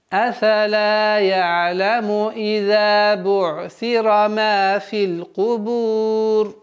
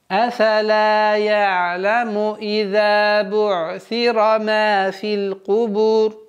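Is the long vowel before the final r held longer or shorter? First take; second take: longer; shorter. First: The vowel before the final r is held for four counts. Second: The vowel before the final r is held for two counts. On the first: "А если будем выбирать 4" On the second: "в размере двух огласовок долгота"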